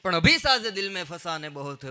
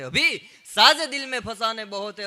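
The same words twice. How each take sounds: First: Said in the usual way. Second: Declaimed louder, stress on સાજે; louder poetic recital. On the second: Shown as a demonstration. Repeats the couplet, poetic recital.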